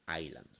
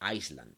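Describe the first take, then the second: First: The s sound is silent in the word. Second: The s sound is pronounced in the word. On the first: The speaker calls it right. "no se pronuncia la S, se dice Island" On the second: The speaker calls it wrong. "no se dice Island"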